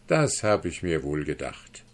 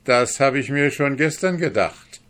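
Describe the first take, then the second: First: Low, quiet, smug put-down with the stress on "das"; knowing sneer, barely raised; quiet scorn. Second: High and loud, "gestern" stressed; loud gloating. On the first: Guest to the duke, quietly scornful. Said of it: "lächelte dabei höhnisch". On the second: Guest gloats at the kneeling dwarf, loud. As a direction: crow over the dwarf's failure. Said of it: "antwortete der Fremde mit Lachen". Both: Acted.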